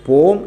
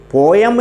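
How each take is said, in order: First: പോം as one long-O syllable; correct pronunciation. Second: പോയം as two syllables, po-yam; common mispronunciation. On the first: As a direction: drop the E in പോം, just "pohm". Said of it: "പോം എന്നേ പറയുള്ളൂ". (പോം എന്ന് ഒറ്റ അക്ഷരമായി) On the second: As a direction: let the E sound in പോയം, po-yam. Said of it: "പോയം എന്ന് നമ്മൾ പറഞ്ഞു പോകുന്നു". (പോ-യം എന്ന തെറ്റായ ഉച്ചാരണം) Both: Shown as a demonstration.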